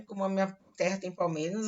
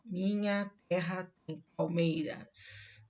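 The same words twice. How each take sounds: First: Said in the usual way. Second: Slow, each syllable of Minha terra tem palmeiras set apart; scanning syllables. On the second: Shown as a demonstration. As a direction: tap out the seven syllables as you say it. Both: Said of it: "em vez de cinco sílabas, ele vai usar sete".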